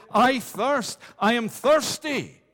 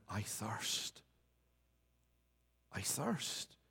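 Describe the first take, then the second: First: Loud, high cry of thirst; raised, pleading proclamation. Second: Soft, low, hushed cry of thirst; quiet, lowered lament. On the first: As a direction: call it out like a desperate cry from the cross. Christ cried, preacher voices it. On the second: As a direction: let it fall almost to a breath, spent and weak. Christ's cry after I am list. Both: Acted.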